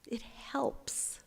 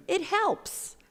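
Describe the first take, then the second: First: Softly whispered it helps, rising; whispered afterthought it helps. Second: Higher and louder, playfully emphatic; high, loud playful it helps; mock-triumphant. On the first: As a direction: let it go in a hush. Whispered echo of same words. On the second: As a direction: announce it like a triumph. Playful emphasis on small deed. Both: Shown as a demonstration.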